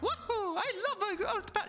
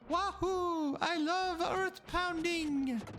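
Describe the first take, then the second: First: It is said with lively energy. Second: It is said flatly, without energy.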